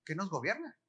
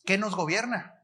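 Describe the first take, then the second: First: "¿Qué nos gobierna?" repeated much softer, rising on "gobierna"; preacher quietly repeating his question. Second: "¿Qué nos gobierna?" asked firmly with weight on "qué"; preacher challenging the congregation; firm question. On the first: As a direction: drop the volume and ask it again, inviting an answer. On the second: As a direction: put the question to the crowd, stressing "qué". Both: Shown as a demonstration. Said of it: "¿Pero qué?".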